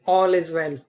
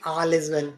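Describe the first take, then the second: First: The vowel in 'all' is an o sound. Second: The vowel in 'all' is not an o sound. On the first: The speaker calls it right. "इसमें ए का sound है ओ ... like ऑल is well" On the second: The speaker calls it wrong. "ना कि all is well"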